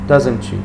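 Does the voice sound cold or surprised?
cold. It sounds flat and cold. It shows no interest. The speaker calls it wrong. "don't say like, ... it's so cold"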